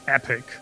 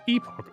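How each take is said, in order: First: It is said with the American pronunciation. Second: It is said with the British pronunciation. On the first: "The American pronunciation is supposed to be epic" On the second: "The British pronunciation is supposed to be epoch"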